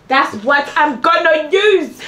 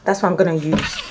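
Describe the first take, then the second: First: Drawn out higher and slower; higher, slow sing-song repeat. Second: Said in the usual way. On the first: Acted. Repeating her plan in a drawn-out higher voice. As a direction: stretch it out, higher, like a catchphrase.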